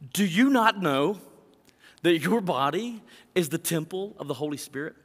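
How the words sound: It is said with lively, emphatic inflection. "I want to say it with some inflection, as though Paul might be saying it to us today"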